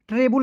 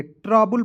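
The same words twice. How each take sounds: First: ट्रेबल with "e" in the first syllable; first vowel of ट्रेबल as eh, not ah; wrong reading. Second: ट्रबल with "ra" and a "bul" ending; corrected first vowel. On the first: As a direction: say ट्रेबल as "TRE-bul". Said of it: "ट्रेबल नहीं पढ़ेंगे". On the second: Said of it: "ट्रबल पढ़ेंगे". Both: Shown as a demonstration.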